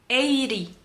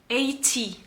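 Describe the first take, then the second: The two takes are said the same way.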